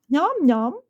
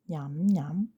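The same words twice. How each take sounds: First: It is said very loudly. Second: It is said fairly softly.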